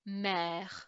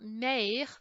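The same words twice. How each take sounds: First: The vowel is an open 'eh' sound. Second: The vowel is a closed 'ay' sound. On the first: The speaker calls it right. "it's an E sound" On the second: The speaker calls it wrong. "instead of being an A sound, it's not mère"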